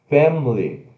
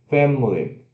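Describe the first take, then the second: No difference in how they are said.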